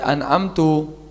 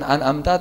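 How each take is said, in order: First: The word ends with a short u vowel. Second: The word ends with a short a vowel. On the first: The meaning of the verse is changed. The speaker calls it wrong. "mendhamahkan itu an'amta" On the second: The blessing is addressed to God as intended. The speaker calls it right. "bukan an'amta"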